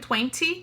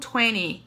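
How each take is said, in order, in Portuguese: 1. O t depois do n é pronunciado por completo. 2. O t depois do n é omitido. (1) "a gente escreve twenty" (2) "a gente pronuncia no inglês americano como twenty"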